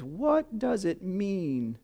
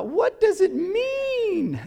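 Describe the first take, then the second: First: Slow, softer, awestruck question; tearful wonder. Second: High, slow, awestruck imitation; drawn-out wonder of the weeping rainbow filmer; awed video guy. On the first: Retold or imitated. Pastor retelling the crying rainbow man's question, slow and hushed. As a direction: ask it slowly as if choked with tears. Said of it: "and he says". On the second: Pastor imitating the double rainbow man, high and awestruck.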